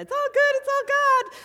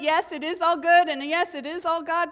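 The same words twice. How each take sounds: First: Much higher, louder sing-song "It's all good, it's all God."; sing-song mockery. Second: "Yes, it is all good" said louder and firm, then "all God" earnest; sincere affirmation. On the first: Minister lampooning a phrase she hates, in a much higher, louder sing-song. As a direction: lampoon the phrase in a silly chirpy voice. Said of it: "You know how I hate when people say that". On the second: Real, not acted. Minister reclaiming the phrase in earnest, louder and firm. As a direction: reclaim the words with conviction. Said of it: "Because you know what?".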